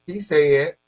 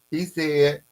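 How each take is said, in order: Both takes have the same delivery.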